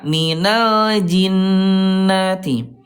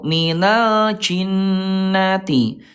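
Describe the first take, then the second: First: The j sound is voiced, with no escaping air. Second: The j sound is breathy, with air escaping. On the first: The speaker calls it right. "yang betul adalah yang kedua" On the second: The speaker calls it wrong. "dia suka ada udara ya"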